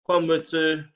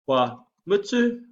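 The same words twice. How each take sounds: First: The voice falls at the end. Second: The voice rises at the end. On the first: It states that someone is finished. "I'm finished" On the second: It asks whether someone is finished. "essentially means are you finished? ... the upward inflection at the end of what we're saying uh, sort of identifies a questions being asked"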